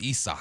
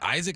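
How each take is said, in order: First: The name sounds different from the English Isaac. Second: The name sounds like the usual English Isaac. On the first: This is how the player says it himself. The speaker calls it right. "he said Isak" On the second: This is how the name looks when read. The speaker calls it wrong. "is it Isaac"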